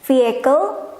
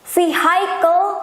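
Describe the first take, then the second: First: The first vowel does not sound like 'eye'. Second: The first vowel sounds like 'eye'. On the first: The speaker calls it right. "Padahal harusnya vehicle" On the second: The speaker calls it wrong. "Bacanya vehicle, ikut-ikutan sama ini"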